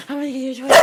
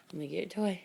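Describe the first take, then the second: First: Excited teasing. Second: Said in the usual way. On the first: Real, not acted. Repeated to dog, rising.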